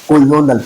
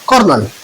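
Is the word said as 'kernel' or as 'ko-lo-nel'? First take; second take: ko-lo-nel; kernel. First: It sounds like 'ko-lo-nel', with three syllables. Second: It sounds like 'kernel', with two syllables. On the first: This follows the spelling, to help remember it. "कॉलोनल पढ़ूंगा" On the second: This is the normal spoken pronunciation. "English में ये word है कर्नल produce होता है"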